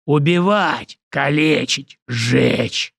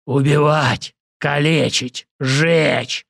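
First: Battle roar. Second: Far-off berserker voice; battle roar. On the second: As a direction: roar it like a crazed fighter. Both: Acted. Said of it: "взревел противник".

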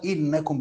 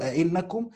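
First: "إنكم" said 'innakum, starting straight on i; single hamza. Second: "أئنكم" said a-'innakum, extra opening a; majority reading, two hamzas. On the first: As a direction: open "إنكم" with one glottal i, no a before it. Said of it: "بهمزة واحدة". ("إنكم" بهمزة واحدة مكسورة) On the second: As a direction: open "أئنكم" with a, then a second glottal 'in. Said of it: "قراءة الجمهور". ("أئنكم" بهمزتين، مفتوحة ثم مكسورة) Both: Shown as a demonstration.

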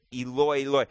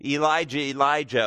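First: "Eloi, Eloi" said as ee-LOY, ee-LOY; Aramaic Eloi. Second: "Elijah, Elijah" said as ee-LIE-jah, with a falling end; sounds like Elijah. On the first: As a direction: stress the second syllable, ee-LOY. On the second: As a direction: bend "Eloi" into ee-LIE-jah. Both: Shown as a demonstration. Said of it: "could sound a little bit like".

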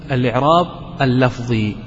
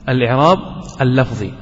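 First: Said in the usual way. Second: "الإعراب اللفظي" said apart, word by word; teacher drilling a grammar term for students, deliberate; term repeated. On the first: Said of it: "هذا يسمى". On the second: Shown as a demonstration. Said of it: "هذا يسمى بالإعراب اللفظي".

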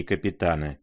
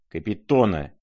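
First: «капитана» with a stressed A; rejected word. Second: «Капитона» with a clear stressed O; corrected name. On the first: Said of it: "Капитона Еропегова, а не капитана". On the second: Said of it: "а не капитана". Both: A narrator's reading.

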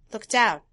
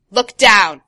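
First: Said in the usual way. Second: Loud barked order; shouted command. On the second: Acted. Crow orders the boy to look down, loud shout. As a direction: shout it in all caps. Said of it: "All caps".

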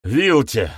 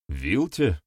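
First: High, loud outcry of a name; panicked confession. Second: Said in the usual way. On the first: A narrator's reading. Accuser breaks and names his aunt, panicked outcry. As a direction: blurt the name out. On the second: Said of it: "поинтересовался ведун".

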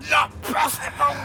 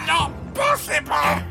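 First: Put-on high, shrieking old man's disbelief; terrified cry. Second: High, drawn-out shriek of disbelief; terrified cry. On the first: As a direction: cry out in sheer terror. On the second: Acted. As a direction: stretch the terror out slowly. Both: Old man attacked by invisible thief.

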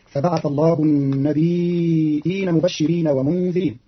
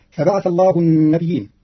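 First: Slow chanted النبيين as nabi'in, light ya then a glottal stop; Qalun's hamzated reading. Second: النبيين with doubled ya, nabiyyin, chanted; verse quoted as usually read. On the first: Teacher shows the reading with hamza, slow chanted. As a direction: say النبيين with a short ya and a clear hamza. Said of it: "بتخفيف الياء ساكنة مع همز بعدها". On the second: Teacher quotes the verse before Qalun's variant, chanted recital. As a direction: recite فبعث الله النبيين with a stressed doubled ya. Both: Shown as a demonstration.

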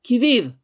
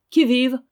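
First: A loud, higher "Qui vive?" again with the stick raised; fearless repeated challenge. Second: A loud, higher "Qui vive?" called through the door; sharp challenge. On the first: Old housekeeper raising her stick at the intruder, louder challenge. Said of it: "répéta l'intrépide vieille en levant son bâton". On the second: Old housekeeper challenging the knock at her door, loud and sharp. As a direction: bark "Qui vive?" at the stranger. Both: A narrator's reading.

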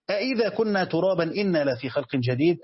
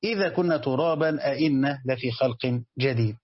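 First: أإذا read with a glottal stop at the start, إنا plain without one; hamza on the first word. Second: إذا read plain, أإنا with a glottal stop at the start; no hamza on إذا, question hamza on أإنا; hamza on the second word. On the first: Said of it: "وبعض القراء يقرأ بالهمزة الأولى". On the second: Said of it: "أو يقرأ الهمزة الثانية". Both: Shown as a demonstration.

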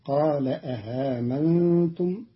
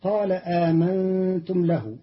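First: آمنتم with the second hamza softened; Qalun's reading. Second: آمنتم with a long aa; standard reading. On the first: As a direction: say أءامنتم, first hamza clear, second eased. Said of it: "الأولى محققة والثانية مسهلة". (تسهيل الهمزة الثانية في آمنتم) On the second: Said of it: "قرأ قالون كلمة". (آمنتم بالمد) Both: Shown as a demonstration.

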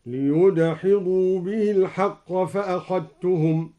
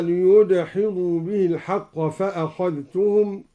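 First: فأخذتهم said fa-akhattum with no dh; dhal merged into ta. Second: Quran recitation. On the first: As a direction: recite merging dhal into ta. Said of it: "أدغم الدوري الذال في التاء هكذا". (إدغام الذال في التاء في فأخذتهم) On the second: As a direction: recite with measured melody. Recites verse before demo. (تلاوة مجودة) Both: Shown as a demonstration.

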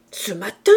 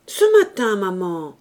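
First: MATIN rising into a loud question; incredulous echo. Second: Protesting son. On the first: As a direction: throw MATIN back as a disbelieving question. Mother echoes him in disbelief. (« matin » montant, question incrédule) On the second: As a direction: answer your mother in a child's protest. Son answers mother's accusation. (fils qui proteste, finale descendante) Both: A narrator's reading.

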